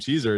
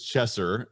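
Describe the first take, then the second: First: The first vowel sounds like in 'cheese'. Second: The first vowel sounds like in 'chess'. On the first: The speaker calls it wrong. "mispronounce my name" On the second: The speaker calls it right. "my last name is Chesser"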